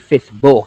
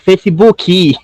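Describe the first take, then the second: First: The word ends on a bare k sound. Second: An extra ee vowel follows the final k. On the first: It sounds like showing off one's English. "I don't say Facebook" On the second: It avoids sounding like showing off one's English. "I say Facebooky"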